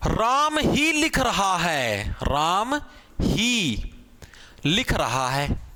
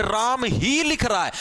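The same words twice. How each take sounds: First: ही pressed hard, words drawn out slowly; stress on ही. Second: ही stressed in a slow steady phrase. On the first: Teacher to students, slow stress on ही. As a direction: lean slowly on ही, pausing between words. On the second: Teacher repeating example, slow stress on ही. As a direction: say it slowly, leaning on ही. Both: Shown as a demonstration. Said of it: "ये जो ही word है इसके अंदर क्या जोर लगाने".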